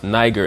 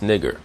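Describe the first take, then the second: First: "niger" with a long eye vowel; common mispronunciation. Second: "nigger" with front I, not eye; corrected pronunciation. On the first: Teacher cites how we read Acts, "niger" with long I. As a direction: say "niger" starting like "nigh". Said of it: "that we pronounce". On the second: Teacher corrects the reading of Acts, "nigger" without long I. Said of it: "It's actually pronounced". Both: Shown as a demonstration.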